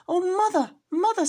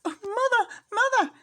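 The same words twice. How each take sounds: First: Very high, loud crying out; a scared kitten tumbling from the jar; high squeaky cry; frightened kitten. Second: Very high, loud crying out; a scared kitten running to mother; high squeaky cry; frightened kitten. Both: Acted.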